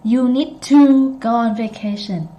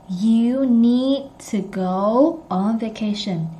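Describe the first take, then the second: First: "to" punched as a long TOO; full stressed "to". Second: Slow, "to" kept a weak tuh; reduced "to". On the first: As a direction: overstress "to" with a full oo. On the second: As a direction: go slowly but leave "to" unstressed as tuh. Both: Shown as a demonstration. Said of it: "You don't say".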